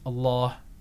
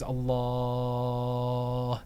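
First: The long vowel is held about two seconds. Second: The long vowel is held about six seconds. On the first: "You can make it 2 seconds" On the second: "And you can make it 6 seconds"

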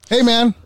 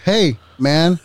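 First: The words run together without a pause. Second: There is a short pause after hey.

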